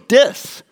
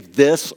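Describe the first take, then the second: First: The word begins with a hard d sound. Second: The word begins with a soft th sound. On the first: The speaker calls it wrong. "I said this and that with a D" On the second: The speaker calls it right. "I didn't say this or that"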